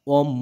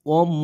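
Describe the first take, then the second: Both takes have the same delivery.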